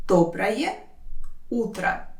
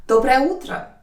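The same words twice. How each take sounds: First: «Доброе», long pause, «утро»; slow teaching breakdown of «Доброе утро»; word by word. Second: Said in the usual way. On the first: Shown as a demonstration. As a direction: sound out each word separately. Teacher separates words for learners.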